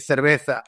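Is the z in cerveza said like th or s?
th. It is said with a Spain-style th sound.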